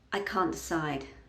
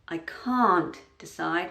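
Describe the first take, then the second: First: The T in can't is a glottal stop. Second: The T in can't is fully pronounced. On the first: The speaker calls it right. "if I'm just speaking nice and naturally, I'm probably going to use a glottal stop there" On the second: The speaker calls it wrong. "would cause a pause there"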